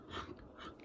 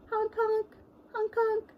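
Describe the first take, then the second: First: Whispered honk; whispering. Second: High honking clown noise; silly clown. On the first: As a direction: breathe the honk silently. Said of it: "whispered honk in the song". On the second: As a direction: honk like a goofy clown. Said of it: "give a big honk". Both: Pretend.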